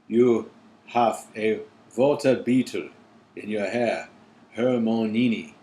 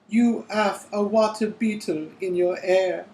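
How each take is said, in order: First: It is read in the voice used for Krum. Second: It is read in the voice used for Harry.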